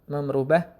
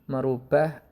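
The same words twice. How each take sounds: The two takes are said the same way.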